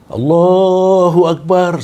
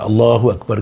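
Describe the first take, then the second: First: It is said in a loud, strong voice. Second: It is said in a weak, soft voice.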